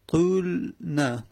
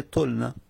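First: طول نه drawn out slowly, the و sounded before a vowelless ل; both consonants held vowelless. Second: طول نه with a short vowel, "tolna", run together; vav dropped. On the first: Teacher showing the uncontracted form to students, طول نه slowly drawn out. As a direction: stretch طول, stop on the ل, then add نه. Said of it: "یعنی وو ساکن، لام ساکن". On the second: Teacher giving students the contracted result, طول نه said short as "tolna". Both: Shown as a demonstration.

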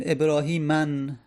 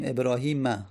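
First: ابراهیمن ending in "-an", with an audible n; wrong tanwin ending. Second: ابراهیم ending in an open "a", ebrahima; no tanwin. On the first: Teacher showing what is not said, ابراهیمن ending "-man". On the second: Teacher correcting the form, ابراهیم ending "-ma". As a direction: close ابراهیم on "-ma", no n. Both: Shown as a demonstration.

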